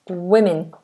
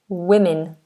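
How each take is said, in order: First: The first syllable sounds like 'wi'. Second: The same.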